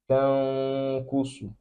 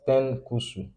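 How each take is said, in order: First: The nasal sound in the first syllable is held. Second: The nasal sound in the first syllable is short. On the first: The speaker calls it right. "just for around two haraka" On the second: The speaker calls it wrong. "not ten kusu"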